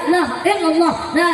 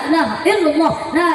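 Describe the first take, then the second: The two takes are said the same way.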